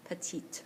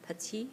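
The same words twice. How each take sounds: First: Petite said with the final t sounded; feminine form. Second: Petit said as peti, with a silent t; masculine form. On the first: Teacher contrasting the two adjective forms: final t sounded. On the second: Teacher contrasting the two adjective forms: silent t. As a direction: end Petit on the i, with no t. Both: Shown as a demonstration. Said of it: "the E for the feminine makes the T have to be pronounced".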